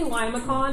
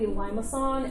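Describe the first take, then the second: First: The c is said like a k. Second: The c is said like an s. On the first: The speaker calls it wrong. "I like to just pronounce things phonetically" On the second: The speaker calls it right. "technically limason, and there's a um, there's an accent with the C"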